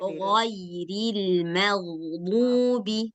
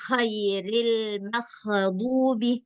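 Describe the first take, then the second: First: The throat consonants sound clean, without any rasp. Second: The throat consonants sound raspy, with a phlegm-like rasp. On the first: The speaker calls it right. "bersih dia" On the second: The speaker calls it wrong. "Nggak boleh dibaca khairil makhdubi"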